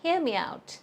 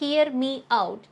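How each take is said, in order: First: 'Me' and 'out' are joined by a gliding sound. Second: 'Me' and 'out' are said separately, without linking. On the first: The speaker calls it right. "try saying" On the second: The speaker calls it wrong. "Instead of saying"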